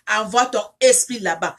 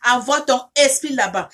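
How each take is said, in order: Both takes have the same delivery.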